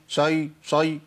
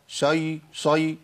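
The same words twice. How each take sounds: The two takes are said the same way.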